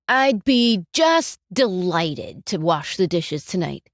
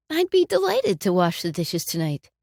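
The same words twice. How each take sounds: First: Slow, louder, dripping sarcasm; sarcastic. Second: Plainly meant, friendly and straight; sincere offer. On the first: Grudgingly offering to wash the dishes, sarcastic. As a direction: lean on just and mock the offer. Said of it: "one is very sarcastic". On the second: Offering a spouse to do the dishes, sincerely. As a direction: offer it like you truly mean it. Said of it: "One is meaningful". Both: Shown as a demonstration.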